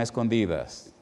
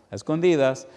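First: Said in the usual way. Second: "a escondidas" repeated with the stress on "escondidas", a bit higher and firmer; emphatic repeat. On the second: Real, not acted. Repeating to the congregation that he was baptized in secret, stress on "escondidas". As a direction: lean on "escondidas" the second time.

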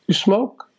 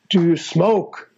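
First: Said in the usual way. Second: "Do you smoke?" drawn out slowly; slow, pointed question. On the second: Retold or imitated. Drummer retells his idol hinting at pot, slow and pointed. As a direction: imitate someone slowly spelling out a loaded question. Repeats question with a hinted meaning.

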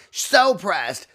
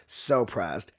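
First: SO PRESSED pitched high and punched; high exclamation. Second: SO PRESSED dropped low; low aside. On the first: Commenting on Madeline's outburst, high and emphatic. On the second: Commenting on Madeline's outburst, low aside. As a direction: repeat it as a lower, falling aside. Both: Real, not acted.

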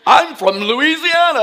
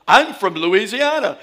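First: Louder Louisiana twang, laughing. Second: Put-on trying hard to hide the Louisiana accent; over-careful Louisiana speaker, giggling; careful diction, laughing. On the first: Retold or imitated. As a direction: Louisiana accent on full display for city folk. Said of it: "it's just this twang". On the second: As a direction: Louisiana accent held back with great effort. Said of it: "trying to be so good with my diction".

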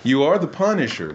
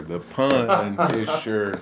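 First: Said in the usual way. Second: "The Punisher" drawn out, slow and low like a movie trailer; dramatic title drop. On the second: Shown as a demonstration. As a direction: announce "The Punisher" slowly like an epic hero name. Pun on Azariah's name.

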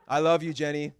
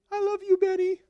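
First: Said in the usual way. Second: Much higher, playful bride voice; mock bride. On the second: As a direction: jump up high to play the bride answering. Bride voiced after groom.

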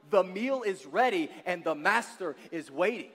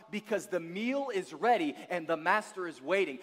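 First: The meal is ready and the master is waiting, declared louder with urgency; preached out. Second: Said in the usual way. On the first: Shown as a demonstration. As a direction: proclaim it to the whole room. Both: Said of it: "I'm here to tell somebody this morning".

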